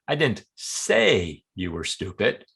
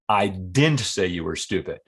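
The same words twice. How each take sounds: First: The stress falls on the word say. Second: The stress falls on the word didn't. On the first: It was conveyed another way, not spoken. "Maybe I wrote it in an email or implied" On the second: It was never said at all. "Flat out denial"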